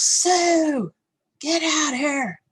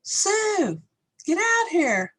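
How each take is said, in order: First: High, loud, drawn-out holler; imitated dad's yell. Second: Put-on very high little-kid holler; imitated child's yell. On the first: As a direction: mimic a dad hollering for his wife. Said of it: "So he yells". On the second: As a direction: mimic a small child copying dad's yell. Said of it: "And so I yell".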